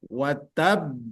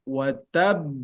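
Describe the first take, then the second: The two takes are said the same way.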